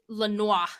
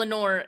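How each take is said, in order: First: The name ends with a French 'nwar' sound. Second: The name ends with a plain 'nore' sound. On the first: The speaker calls it wrong. "I pronounced it Lenoir. ... it's French" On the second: The speaker calls it right. "I've never said his name wrong since"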